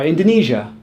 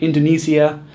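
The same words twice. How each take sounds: First: "Indonesia" as in-duh-NEE-zhuh; correct Indonesia. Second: "Indonesia" as in-duh-NEE-zee-uh; mispronounced Indonesia. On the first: Teacher giving another example, correct pronunciation. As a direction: say "Indonesia" with a ZH ending. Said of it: "Same is true for". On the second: Teacher showing what not to say, mispronounced. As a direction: say "Indonesia" wrongly with a ZEE-uh ending. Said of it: "not Indonesia". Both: Shown as a demonstration.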